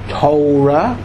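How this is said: Torah is said in an American Hebrew accent. "which you call the American pronunciation"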